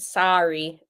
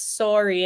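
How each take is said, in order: First: It is said with an American accent. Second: It is said with a Canadian accent.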